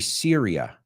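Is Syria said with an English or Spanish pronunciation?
English. It is said with an English pronunciation. This is how English speakers say it. "we say Syria"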